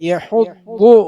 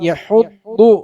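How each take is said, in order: Both takes have the same delivery.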